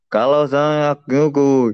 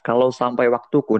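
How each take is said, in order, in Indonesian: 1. Bunyinya diseret-seret dan menyatu satu sama lain. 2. Setiap bunyi diucapkan dengan tegas dan jelas. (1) "kalau yang artikulasinya enggak jelas" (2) "Itu kan jelas"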